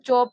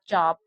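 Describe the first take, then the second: First: The vowel sounds like 'oh'. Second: The vowel sounds like 'ah'. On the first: The speaker calls it wrong. "इसको हम लोग चोप नहीं पढ़ेंगे" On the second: The speaker calls it right. "इस शब्द का उच्चारण होगा चाप"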